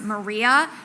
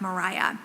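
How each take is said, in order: First: The name is said as plain Maria. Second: The name is said like Mariah. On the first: This is how it would be said today. "we would probably pronounce it Maria" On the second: This is how it was said in the English colonies. "as if it were spelled with an H at the end"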